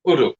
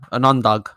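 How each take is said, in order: First: "Udug" with clear oo vowel, no n; correct pronunciation. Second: "undug" with an n, un-dug; mispronounced. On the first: Shown as a demonstration. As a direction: say "Udug" as oo-dug. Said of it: "you mean udug". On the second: Retold or imitated. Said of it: "you were saying undug".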